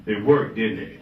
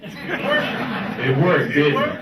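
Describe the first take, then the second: First: Said in the usual way. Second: Worked said through a laugh, rising; laughing repeat. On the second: Real, not acted. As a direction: laugh it back at them.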